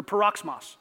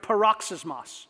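First: "paroxysmos" shortened to pa-ROKS-mos; alternative Greek pronunciation. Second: "paroxysmos" said in full, with a siz syllable before mos; Greek pronunciation. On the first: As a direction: drop the middle syllable of "paroxysmos": pa-roks-mos. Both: Shown as a demonstration. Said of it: "or paroxysmos".

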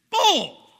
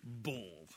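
First: Much higher, louder outburst; shouted bull. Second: Low, soft muttered scoff; muttered bull. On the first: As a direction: explode with the word. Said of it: "preacher outburst". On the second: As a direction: grumble it under your breath. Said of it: "preacher mock reaction". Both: Acted.

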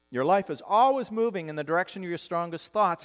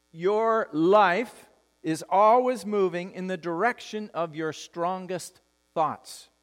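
First: Said in the usual way. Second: Deliberate pacing, pausing before the final word; slow, weighty statement. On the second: Real, not acted. Pastor giving the congregation a key truth, slow and emphatic. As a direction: spell out the key truth slowly, phrase by phrase.

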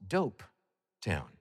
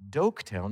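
First: "Dope Town" said with a p, Dope, the real nickname; "Dope" with a clear p sound, then "Town"; correct name Dope Town. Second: "Doke Town" said with a hard k, Doke, the mistaken name; "Doke Town", the wrong name, pronounced with a k sound. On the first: the speaker telling Gary the town's real nickname, "Dope Town", with a p. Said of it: "it's called". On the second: the speaker correcting Gary's mistaken "Doke Town", with a k. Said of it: "it's not". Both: Shown as a demonstration.

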